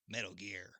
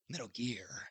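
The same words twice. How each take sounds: First: The pitch stays fairly flat and plain. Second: The pitch goes up and then down. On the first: The speaker calls it wrong. "he doesn't say Metal Gear" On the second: The speaker calls it right. "He says Metal Gear. ... you gotta like go up and down"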